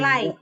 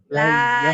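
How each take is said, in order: First: The word ends with an added y glide. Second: The word ends on a plain open vowel. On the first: The speaker calls it wrong. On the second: The speaker calls it right.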